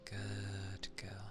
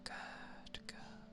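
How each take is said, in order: First: It is spoken in a low, quiet voice. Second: It is spoken in a whisper. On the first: "I tend to prefer low quiet over whisper" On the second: "how would a whispering go?"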